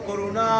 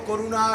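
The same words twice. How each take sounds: The two takes are said the same way.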